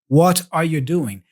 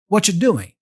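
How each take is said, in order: First: Each word is said fully and separately. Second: The first words blend together into "whatcha".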